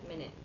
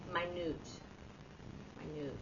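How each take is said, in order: First: "minute" said MIN-it; "minute" as the unit of time, MIN-it; first pronunciation. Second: "minute" said my-NOOT; "minute" meaning tiny, my-NOOT; second pronunciation. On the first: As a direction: stress the first syllable of "minute". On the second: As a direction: stress "minute" on a long second syllable, my-NOOT. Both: Shown as a demonstration. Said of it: "you say it differently".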